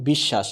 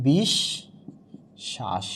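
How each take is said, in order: First: Said in the usual way. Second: বিশ্বাস very slowly as "bish... shash"; syllable-by-syllable demo. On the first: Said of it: "উচ্চারণ হয়ে যাচ্ছে কি". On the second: Shown as a demonstration. Teacher showing the doubled consonant, slow syllable demo. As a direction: split বিশ্বাস after a doubled sh, long pause between. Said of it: "তাহলে হয়ে যায়".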